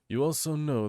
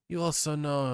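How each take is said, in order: First: It is said in a put-on character voice. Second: It is said in the speaker's ordinary voice.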